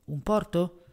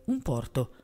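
First: A courteous questioning offer; polite offer. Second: A flat, decided command, no question; just order it, case closed; curt order. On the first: Brown junior offering Maigret a port, courteous question. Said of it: "poi chiese a Maigret". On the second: Brown junior ordering the waiter anyway, curt command. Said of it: "Brown ordinò comunque". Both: A narrator's reading.

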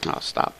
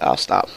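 First: Breathy whisper, "I'll stop" barely voiced. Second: Said in the usual way. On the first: Real, not acted. Gamer hushing himself after being told to stop, whispered. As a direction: drop to a whisper as if told to hush. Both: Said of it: "okay, you want me to st".

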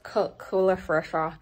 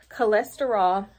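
First: Tripping over "cholesterol", middle syllables slurred; stumbled pronunciation. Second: "cholesterol" said carefully with every syllable; corrected pronunciation. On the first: Vlogger naming hair product, tongue-tied on "cholesterol". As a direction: fumble "cholesterol" as roughly "coo-ler-fa". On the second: Vlogger fixing her stumble, "cholesterol" pronounced clearly. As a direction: land "cholesterol" cleanly as "kuh-LES-ter-all". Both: Real, not acted.

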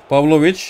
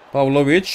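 No difference in how they are said.

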